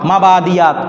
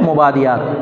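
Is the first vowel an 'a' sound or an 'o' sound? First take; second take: a; o. First: The first vowel is an open 'a' sound. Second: The first vowel is a rounded 'o' sound. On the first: This is the Arabic pronunciation. "আরবিতে কি বলা হয় মাবাদিয়াত" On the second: This is the Urdu pronunciation. "উর্দুতে বলে মোবাদিয়াত"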